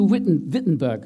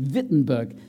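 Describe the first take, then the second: First: The name is said in a plain English way. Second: The name is said carefully in its native form. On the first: The speaker calls it wrong. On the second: The speaker calls it right.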